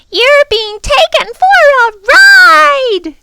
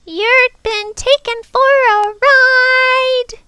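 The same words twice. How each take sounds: First: Very high, loud, slow screech; screaming bird. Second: Very high, slow, loud bird screech; squawking bird. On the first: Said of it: "she screamed for the third time". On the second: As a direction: squawk it out on one high pitch. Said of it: "shook herself and muttered". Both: Acted.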